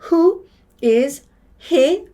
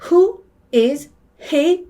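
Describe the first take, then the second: The two takes are said the same way.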